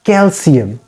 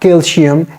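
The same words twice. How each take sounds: First: "calcium" with a clear s sound for the c; corrected calcium. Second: "calcium" with a sh sound for the c; "calcium" said like "calshium"; mispronounced calcium. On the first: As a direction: say "calcium" as kel-see-um. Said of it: "sounds of C should be maintained". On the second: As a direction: say "calcium" as kel-shee-um. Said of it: "it is not calcium". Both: Shown as a demonstration.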